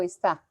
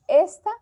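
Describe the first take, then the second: First: "está" said es-TÁ, weight on the final syllable; stress on last syllable. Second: "esta" said ES-ta, weight on the first syllable; stress on first syllable. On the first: Teacher contrasting two words for the class, es-TÁ. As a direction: land on TÁ in "está", keep es light. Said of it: "está señalando". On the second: Teacher contrasting two words for the class, ES-ta. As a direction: lean on ES in "esta", let ta fall away. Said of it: "Esta es demostrativo". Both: Shown as a demonstration.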